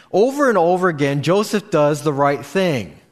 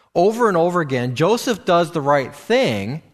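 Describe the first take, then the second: No difference in how they are said.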